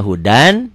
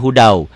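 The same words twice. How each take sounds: First: "hudan" ending in a clear n; as written. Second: "hudau" with the n gone to w; as read. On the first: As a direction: sound the final n of "hudan". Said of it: "Tulisannya hudan". ("hudan", n akhir jelas) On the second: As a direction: finish "hudau" on a w glide. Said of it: "bacanya hudau". ("hudau", tanpa n, jadi w) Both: Shown as a demonstration.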